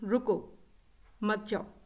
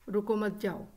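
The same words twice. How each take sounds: First: It has a pause after the first word. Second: It is said flat, without any pause. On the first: The listener is told to stay and not leave. "अब मैं इसको punctuate करती हूँ" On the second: The meaning is unclear. "अपने लहजे के उतार चढ़ाव के बगैर"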